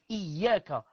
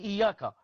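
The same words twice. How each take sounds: First: The y sound is held and doubled. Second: The y sound is short and single. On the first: The speaker calls it right. "Iyaka avec shidda" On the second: The speaker calls it wrong. "tu dis Iyaka"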